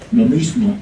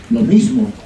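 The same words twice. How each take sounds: The two takes are said the same way.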